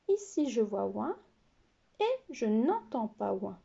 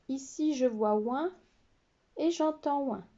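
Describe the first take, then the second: First: "Ici, je vois ouin" with ici stressed and rising; contrast not ouin. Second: "Ici, je vois ouin" stressing ici with a rising end; contrast ouin. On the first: Teacher warns pupils about the trap, stressing ici. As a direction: stress the "pas" in "je n'entends pas ouin". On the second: Teacher contrasts spellings for pupils, stressing ici. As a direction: point out "ouin" clearly. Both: Shown as a demonstration. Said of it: "Attention au piège".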